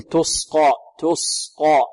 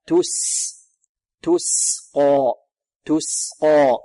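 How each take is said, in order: First: تسقى with س darkened into ص, "tosqa"; wrong heavy seen. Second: Slow تسقى, long thin hiss of س then dark ق; light seen, heavy qaf. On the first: Teacher imitates a student error, wrong heavy seen. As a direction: thicken the seen of تسقى into a sad. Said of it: "ربما تصير صادا لمجاورتها القاف". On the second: Teacher corrects the error, light seen, heavy qaf. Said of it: "تقيق السين وتفخيم القاف". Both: Shown as a demonstration.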